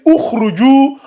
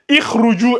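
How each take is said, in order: First: The word begins with a u vowel. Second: The word begins with an i vowel. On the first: The speaker calls it right. "ça va rester ukhruju" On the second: The speaker calls it wrong. "On va pas lire ikhruju"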